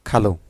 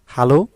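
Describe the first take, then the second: First: Standard খালু with an opening kh; standard form. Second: Regional হালু with h for kh, loud; loud dialect "halu", opening on h; regional form. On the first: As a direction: say খালু as "khalu". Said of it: "ডান পাশে হচ্ছে প্রমিত রূপ". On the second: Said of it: "খালুরে অনেকে কী বলে?". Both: Shown as a demonstration.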